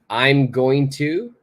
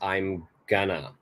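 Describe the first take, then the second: First: Each word of going to is said in full. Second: Going to is squeezed into one short gonna. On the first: "So I'm going to equals I'm gonna" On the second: "You really want to shorten things"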